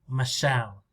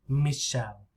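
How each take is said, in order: First: The stress is on the second syllable. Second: The stress is on the first syllable. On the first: "Listen to me in English, American English. ... It's on the second, right? Longer and louder" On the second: "French, maybe the stress is here. Me"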